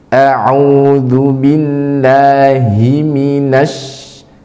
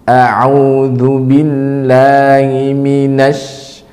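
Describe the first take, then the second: First: The 'hi' in billahi is clear and distinct. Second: The 'hi' in billahi is weak and unclear. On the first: The speaker calls it right. "Seharusnya huruf hi dibaca jelas" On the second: The speaker calls it wrong. "atau kurang menjelaskan huruf hi"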